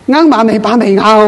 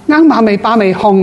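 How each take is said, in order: First: The mantra ends with the syllable ngau. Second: The mantra ends with the syllable hung. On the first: The speaker calls it wrong. "你念错咗啦" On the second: The speaker calls it right. "啱马尾巴尾控嘛"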